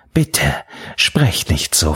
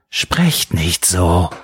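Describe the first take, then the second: First: Understated, low-pitched plea; pleading. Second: Understated anguished shout, every word stretched; crying out. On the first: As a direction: gently beg her to stop. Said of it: "flehte er". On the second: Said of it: "schrie er wieder". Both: A narrator's reading.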